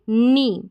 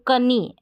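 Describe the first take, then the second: First: The word starts directly with an n sound. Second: The word starts with an audible k sound. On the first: The speaker calls it right. "के silent रहेगा और नी इसको पढ़ा जाएगा" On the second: The speaker calls it wrong. "अगर नहीं पता होगा तो कनी पढ़ेंगे जो कि गलत रहेगा"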